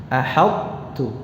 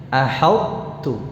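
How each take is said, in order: No difference in how they are said.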